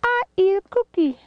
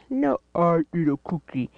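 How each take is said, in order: First: High, fast squeaky character voice; high toy voice. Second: Said in the usual way. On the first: Pretend. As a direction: play a tiny cartoon critter. Voicing a toy in play.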